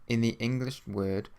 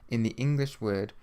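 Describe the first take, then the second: Both takes have the same delivery.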